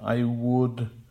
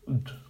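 First: Both words are said fully and clearly. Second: The first syllable is almost swallowed. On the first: "It's not I'd, I would" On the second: "The first syllable is almost swallowed"

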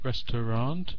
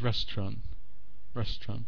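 First: The word is said with three full syllables. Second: The word is shortened to two syllables. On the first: "like restaurant becomes restaurant" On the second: "a word is shortened"

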